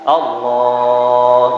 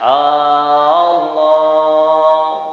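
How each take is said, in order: First: The opening vowel is short; the later vowel is long. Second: The opening vowel is drawn out long. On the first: The speaker calls it right. "di situ yang panjang" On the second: The speaker calls it wrong. "jangan dipanjangkan hamzahnya"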